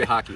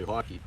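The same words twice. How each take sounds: First: Said in the usual way. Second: "hockey" with a Canadian vowel; Canadian pronunciation. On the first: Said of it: "They don't say hockey". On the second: Shown as a demonstration. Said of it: "They say hockey".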